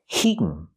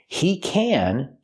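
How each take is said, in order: First: The word can has a reduced vowel. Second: The word can has a full vowel.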